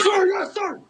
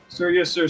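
First: It is said in a loud, aggressive way. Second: It is said in a casual, plain way.

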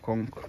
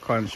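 First: The word is said like 'kunk', Jamaican style. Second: The word is said with an American pronunciation. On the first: "in Jamaica it's called conch. Like pronounced K-U-N-K" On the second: "Americans call it conch"

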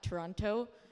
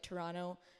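First: It is pronounced the way outsiders say it. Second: It is pronounced the way locals say it. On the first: The speaker sounds like someone not from the city. The speaker calls it wrong. "not Toronto" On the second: The speaker sounds like a native of the city. The speaker calls it right. "I'm happy that you pronounce it like Toronto"

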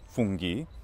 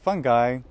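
First: The word has a Latin pronunciation. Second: The word has an English pronunciation. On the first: It is the Latin plural of fungus. "the plural is fungi in Latin" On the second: It means various kinds of fungus. "the various kinds of funguses or fungi"

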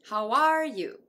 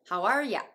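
First: Every word is pronounced fully and clearly. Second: The final word is reduced to ya. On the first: "ちゃんと発音したときは" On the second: "You が音声変化してHow are ya?"

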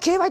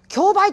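First: It is said with the legal reading. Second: It is said with the everyday reading. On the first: The speaker has studied law. The speaker calls it right. "そこは競売って言ってくれなきゃね" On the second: The speaker has no legal training. The speaker calls it wrong. "あの役者さんが競売とか言っちゃうと、それこそこっちは興ざめですよ"

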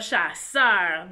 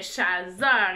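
First: The middle consonant is an S sound. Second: The middle consonant is a Z sound. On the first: The speaker calls it right. "et pas chasseur" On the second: The speaker calls it wrong. "s'il y avait juste un S, ça ferait chasseur"

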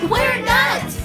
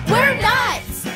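The two takes are said the same way.

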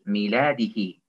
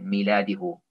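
First: The final vowel is an 'i' sound. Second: The final vowel is an 'u' sound. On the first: The speaker calls it right. "Kendin öncesi kesra ise bunu da kesra okuyoruz" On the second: The speaker calls it wrong. "Miladihu olmuyor"

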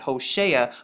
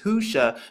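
First: The name is said with three syllables. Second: The name is said with two syllables. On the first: This is the usual dictionary pronunciation. The speaker calls it wrong. "they pronounce it Hosea" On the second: This follows the original Hebrew letters. The speaker calls it right. "it's pronounced Husha"

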